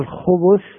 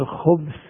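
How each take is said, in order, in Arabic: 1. الحرف الأوسط عليه ضمة. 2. الحرف الأوسط ساكن.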